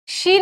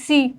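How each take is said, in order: First: The word starts with a 'sh' sound. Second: The word starts with an 's' sound. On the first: The speaker calls it right. "शी नहीं बोलते" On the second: The speaker calls it wrong. "सी सी बोलते हैं"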